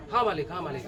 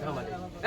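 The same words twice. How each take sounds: First: Lower, softer, submissive "yes master"; meek servant. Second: Barely breathed "yes master"; whispered servile reply. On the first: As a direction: cower before the boss. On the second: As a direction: shrink away, almost silent. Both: Acted. Servant answers his master.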